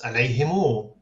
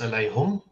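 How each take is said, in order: First: The word ends with an added final "u" vowel. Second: The word ends in a short "hum" syllable. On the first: This is how another reading recites it. "in another one, it's pronounced alayhimu" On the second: This is how one reading recites it. "in one reading, it's pronounced alayhum"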